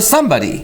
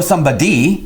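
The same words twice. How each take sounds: First: The stress falls on the usual syllable. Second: The stress falls on an unusual syllable. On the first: The speaker calls it right. "You go somebody" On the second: The speaker calls it wrong. "You don't go somebody"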